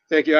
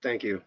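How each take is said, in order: First: Said in the usual way. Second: Much softer, lower, almost breathed thanks; barely voiced thank you. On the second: Real, not acted. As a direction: say it under your breath, touched.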